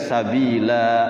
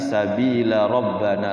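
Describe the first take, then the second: First: The final vowel is drawn out long. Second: The final vowel is short, joined to the next word. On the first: The speaker calls it wrong. "nggak dibaca sabila" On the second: The speaker calls it right. "tapi sabila rabbana langsung"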